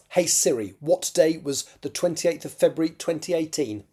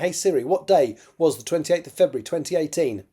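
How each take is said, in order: First: The question is spoken more slowly. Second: The question is spoken quickly. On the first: The speaker calls it right. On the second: The speaker calls it wrong.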